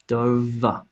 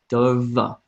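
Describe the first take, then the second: The two takes are said the same way.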